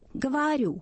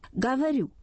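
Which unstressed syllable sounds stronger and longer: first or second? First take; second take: second; first. First: The syllable just before the stress is long and strong. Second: The first syllable is strong, the next one weak. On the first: This is the Moscow way of speaking. "Мы говорим «говорю», я утрирую немножко" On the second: This is how people from other regions speak. "То есть первый слог сильный, второй перед ударением слабый"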